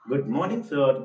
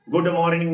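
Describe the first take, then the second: First: गुड मॉर्निंग सर with no r in मॉर्निंग, mॉनिंग; smooth गुड मॉर्निंग सर, r dropped; right way. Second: गुड मॉर्निंग with a hard rolled r, said louder; the wrong way to say गुड मॉर्निंग. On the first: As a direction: model the correct गुड मॉर्निंग सर. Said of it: "ऐसे". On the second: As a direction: stress गुड मॉर्निंग with the r sounded in मॉर्निंग. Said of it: "नहीं बोलना है". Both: Shown as a demonstration.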